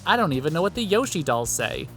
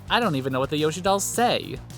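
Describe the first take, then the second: First: The emphasis falls on the word Yoshi. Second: The emphasis falls on the word say. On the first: The speaker calls it right. "he should have put the emphasis on Yoshi instead of on say. As in" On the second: The speaker calls it wrong.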